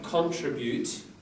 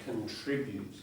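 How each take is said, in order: First: The stress is on the first syllable. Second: The stress is on the second syllable. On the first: This is a British way of saying it. The speaker calls it wrong. "So not contribute. I think some British might say that" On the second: This is the Australian way of saying it. The speaker calls it right. "but here it's certainly contribute"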